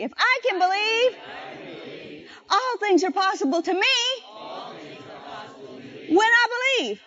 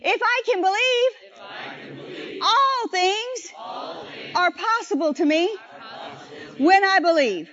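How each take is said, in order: First: Higher, shouted call for the church to repeat; preacher's shouted refrain; rousing call. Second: Drawn-out, climactic shout; slow shouted refrain. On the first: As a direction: lift it up and shout it out. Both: Shown as a demonstration. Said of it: "say it with me".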